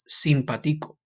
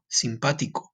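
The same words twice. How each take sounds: First: The 'pa' syllable is not stressed. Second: The 'pa' syllable is stressed. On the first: "if this word did not have an accent, the way you would say this word is" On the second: "because they have an accent, you put an emphasis on the A"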